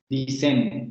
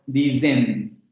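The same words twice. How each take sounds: First: The middle consonant is a voiceless hissing s. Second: The middle consonant is a voiced buzzing z. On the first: The speaker calls it wrong. "No está diciendo dicen, dicen, como diríamos en español" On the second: The speaker calls it right. "está diciendo dicen"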